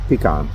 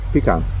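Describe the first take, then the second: No difference in how they are said.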